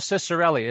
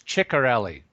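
First: The name is said with an anglicized pronunciation. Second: The name is said with an Italian pronunciation. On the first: The speaker calls it wrong. "they're not pronouncing it right" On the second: The speaker calls it right. "it's Ciccarelli"

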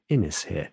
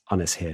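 First: The first vowel sounds like the one in 'in'. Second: The first vowel sounds like the one in 'on'. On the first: The speaker calls it wrong. "not in us here" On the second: The speaker calls it right. "It's on us here"

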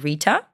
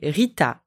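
First: The name starts with an English-style R. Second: The name starts with a French throaty R. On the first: "like kind of in English" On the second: "So in French, you would say Rita"

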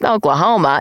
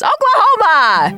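First: It is said flatly, without excitement. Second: It is said with excited, exclamatory energy.

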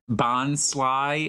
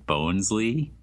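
First: The first syllable sounds like 'bon'. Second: The first syllable sounds like 'bones'. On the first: The speaker calls it right. "Bonsly is what somebody told me" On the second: The speaker calls it wrong. "how harshly I was criticized for my pronunciation of Bonesly"

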